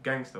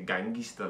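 First: The word ends in a plain 'ster' sound. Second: The word has an added vowel, ending in 'ista'. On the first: This is the word the speakers intend to say. "like they're trying to say gangster" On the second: This is how East African speakers actually say it. "but they say gangista, like the pronunciation"

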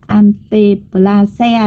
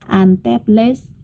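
First: The ending 'se' is a separate, Vietnamese-style syllable. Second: The ending is clipped, without a separate 'se' syllable. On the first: The speaker calls it wrong. "người ta không đọc là anteplasea đâu nhá" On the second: The speaker calls it right. "chắc là nó sẽ đọc là anteples nhá"

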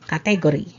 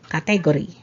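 First: The stress falls on the second syllable. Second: The stress falls on the second syllable.

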